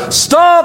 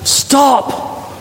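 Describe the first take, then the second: First: High, ringing cry of stop; cries out. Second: High whispered stop; breathy stop. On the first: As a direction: shout it to stop the knife. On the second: Jesus pleading from heaven, whispered stop. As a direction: breathe the word as an urgent plea. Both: A narrator's reading. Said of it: "Jesus cries out from heaven".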